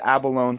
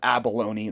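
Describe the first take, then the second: First: The word ends like 'alone', without a final vowel. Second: The word ends like 'baloney', with a final vowel. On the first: The speaker calls it wrong. "I said abalone for years and got corrected" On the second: The speaker calls it right. "Sounds like baloney"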